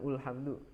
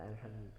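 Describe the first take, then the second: First: The word begins with a u vowel. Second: The word begins with an a vowel. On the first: The speaker calls it wrong. "bukan ulhamdu" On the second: The speaker calls it right. "tapi dibaca a"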